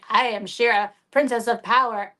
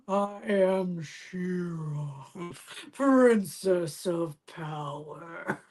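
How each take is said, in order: First: The voice is at a normal, steady pitch. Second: The voice drags and sinks lower in pitch. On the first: The toy has fresh batteries. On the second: The toy's batteries are dying.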